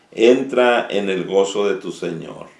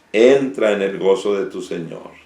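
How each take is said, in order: The two takes are said the same way.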